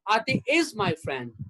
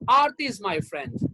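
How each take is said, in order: First: The word is carries the stress. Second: The word Aarti carries the stress. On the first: The friendship continues in the present. "That means she is still my friend" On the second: This particular person, not others, is the friend. "That means Aarti is my friend. Geeta, Sunita, they are not my friends"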